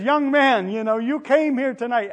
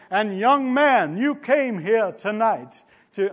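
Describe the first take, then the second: First: Louder and higher, ringing preacher's call; booming crusade preacher, louder and higher, no accent; evangelist's call. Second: Slow, louder start at a Southern preacher's call, then dropped; a half-tried Billy Graham, slowed down; Billy Graham impression. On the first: Retold or imitated. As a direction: call out to the young man like an evangelist from the pulpit. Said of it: "he says". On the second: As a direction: begin a drawn-out evangelist's altar call, then give it up. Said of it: "I won't even try to do the accent".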